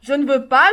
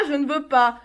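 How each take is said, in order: First: Louder, insistent no with a rise; loud refusal. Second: Said in the usual way. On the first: Acted. Mother refusing her son his fatigues, loud. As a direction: throw the refusal at him.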